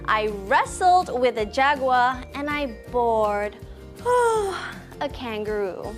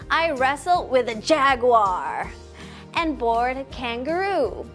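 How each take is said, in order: First: The words wrestled and bored are stressed. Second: The words jaguar and kangaroo are stressed. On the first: The poet did two very different things. "You can say wrestled with a big manly voice. And then you can use a slow voice and say bored" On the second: The poet had seen two different animals. "You can also emphasize the word jaguar and kangaroo"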